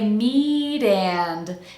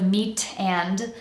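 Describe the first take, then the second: First: The T is a quick tap, like D. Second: The T is a full, strong stop. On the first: "I'm going to pronounce this as a tapped T" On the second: "rather than pronouncing a strong T sound"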